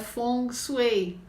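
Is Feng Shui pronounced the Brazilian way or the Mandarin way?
Mandarin. It is pronounced the way Mandarin speakers say it. "a pronúncia correta em mandarim, né? Como os chineses falam"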